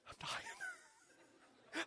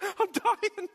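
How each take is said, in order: First: A thin, faint, dying rasp; hammed-up near-death gasp; mock dying croak. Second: A louder, higher hammed-up wail; mock dramatic dying. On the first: Pastor hamming up his thirst in a faint dying voice. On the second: Pastor repeating his dying line as a loud mock lament. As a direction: overplay being parched.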